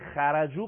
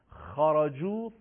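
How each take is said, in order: First: The khā and vowel are light and thin. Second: The khā and vowel are heavy and thick. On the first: The speaker calls it wrong. "غلطه" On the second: The speaker calls it right. "این 7 حرف در حالت فتحه درشت تلفظ میشن"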